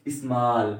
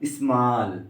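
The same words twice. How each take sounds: First: स्मॉल again with long open आ; teacher repeating the model; repeated small. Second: स्मॉल with long open आ; teacher modelling pronunciation; model word small. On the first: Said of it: "क्या पढ़ रहे हैं". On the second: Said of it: "ए को हमने क्या पढ़ा". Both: Shown as a demonstration.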